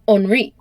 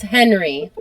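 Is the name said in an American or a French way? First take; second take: French; American. First: The name is said with French sounds. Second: The name is said with American English sounds. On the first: "but in France it's Henri" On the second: "So it's Henry"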